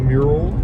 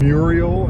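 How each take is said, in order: First: It sounds like the standard word mural. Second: It sounds like the name Muriel. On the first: The speaker calls it right. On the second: The speaker calls it wrong.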